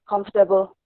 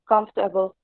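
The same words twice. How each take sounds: Both takes have the same delivery.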